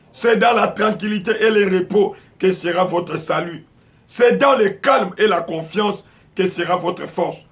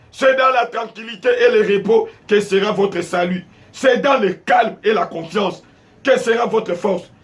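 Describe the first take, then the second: Both takes have the same delivery.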